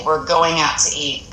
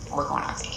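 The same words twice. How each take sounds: First: Said in the usual way. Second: Words fading into breath at the end; trailing off to a whisper. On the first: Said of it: "initially we may say". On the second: Shown as a demonstration. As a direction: fade out to an unvoiced whisper. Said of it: "trail off at the end".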